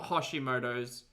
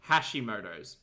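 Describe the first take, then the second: First: The first syllable does not sound like 'hash'. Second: The first syllable sounds like 'hash'. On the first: The speaker calls it wrong. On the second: The speaker calls it right. "Think hash brown"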